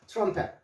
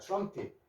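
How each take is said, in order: First: The second syllable has an 'e' vowel, 'pet'. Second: The second syllable has an 'i' vowel, 'pit'. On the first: The speaker calls it wrong. "트럼펫을" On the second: The speaker calls it right. "트럼핏이라 하십시오"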